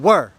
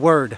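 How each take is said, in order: First: The final D sound is dropped. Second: The final D sound is clearly pronounced. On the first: The speaker calls it wrong. "They were in the habit of going were" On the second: The speaker calls it right. "I should hear a D at the end"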